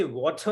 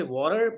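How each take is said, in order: First: British "water", no final r; British accent. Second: American "water", r-coloured ending; American accent. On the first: Teacher warning student not to copy it, British accent. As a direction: mimic a British "water" as the one to avoid. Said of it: "some British person". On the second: Teacher warning student not to copy it, American accent. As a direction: mimic an American "water" as the one to avoid. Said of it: "American, that person will say water". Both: Shown as a demonstration.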